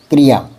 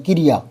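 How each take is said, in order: First: क्रिया with क and र joined, no vowel between; correct pronunciation. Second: क्रिया with an extra short i after क; common mispronunciation. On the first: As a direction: run the क straight into रिया in क्रिया. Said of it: "की नहीं होता". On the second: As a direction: split क्रिया into ki-ri-ya. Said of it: "सारे बच्चे की बोलते हैं". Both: Shown as a demonstration.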